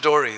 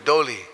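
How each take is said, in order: First: The v is gone and l becomes r. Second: The v is smoothed away, leaving an l. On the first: This is the local form of the name. "they mix their R's and L's around. So it becomes Dori" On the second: The sharp sound is softened in the local speech. "So we smooth it into U"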